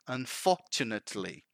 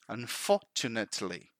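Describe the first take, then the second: The two takes are said the same way.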